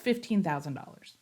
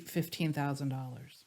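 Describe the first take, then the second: First: The price is said confidently, with strong energy. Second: The price is said hesitantly, with little energy. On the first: The speaker believes the service is worth more. The speaker calls it right. "you say it differently" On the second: The speaker doubts the service is worth the price. The speaker calls it wrong. "Now I'm exaggerating a little bit"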